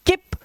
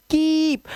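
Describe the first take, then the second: First: किप cut short, "kip"; a quick short "i" in किप; wrong short vowel. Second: कीप with the "ee" held long; long vowel sound. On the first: Teacher showing the learner's mistake, wrong short vowel. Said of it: "तो आप गलत हो यार". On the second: Teacher showing double e is long, stretched vowel. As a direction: lengthen कीप to "keeep". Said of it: "इसमें long vowel sound होता है". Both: Shown as a demonstration.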